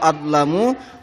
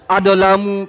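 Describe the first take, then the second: First: The d runs straight into the l. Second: The d is followed by an added vowel. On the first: The speaker calls it right. "jangan ada ketarik sedikit pun" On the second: The speaker calls it wrong. "banyak yang baca itu kadang-kadang adolamu katanya"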